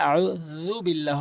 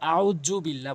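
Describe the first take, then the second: First: The middle consonant is a voiced 'th' sound. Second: The middle consonant is a 'j' sound. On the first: The speaker calls it right. "সঠিকভাবে উচ্চারণ করলে আউযু বিল্লাহ হবে।" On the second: The speaker calls it wrong. "অধিকাংশ লোক জ বলে, জ আউযু বিল্লাহ বলে, ভুল।"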